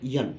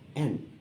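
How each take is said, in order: First: The name begins with an added y sound. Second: The name begins directly with a vowel sound. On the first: The speaker calls it wrong. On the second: The speaker calls it right.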